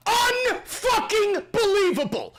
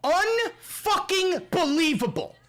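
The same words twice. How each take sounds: First: Shouted repeat. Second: Said in the usual way. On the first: Real, not acted.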